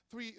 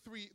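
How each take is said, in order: Both takes have the same delivery.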